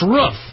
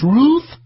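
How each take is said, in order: First: The vowel is said in a plain relaxed way. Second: The vowel is said with exaggerated pursed lips. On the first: This is the speaker's own way of saying it. The speaker calls it right. "That's how you fucking say the word" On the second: This is how others want it said. The speaker calls it wrong. "stick my neck out and, and make a, a giant, giant uh, ape-like uh, pursing of my lips"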